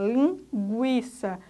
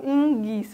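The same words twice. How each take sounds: First: The u after the g is pronounced. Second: The u after the g is silent. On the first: The speaker calls it right. "Aí estão sendo pronunciados tanto G quanto U" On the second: The speaker calls it wrong. "A gente não fala linguiça"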